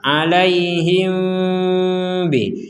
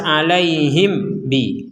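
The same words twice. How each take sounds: First: The m is half-hidden, between nasal and clear. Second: The m is pronounced fully clear, without nasal hum. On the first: The speaker calls it right. "dibaca dengan samar" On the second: The speaker calls it wrong. "Kalau dibaca jelas"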